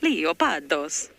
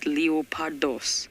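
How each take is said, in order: First: It is said in an Italian-sounding accent. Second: It is said in a Greek-sounding accent.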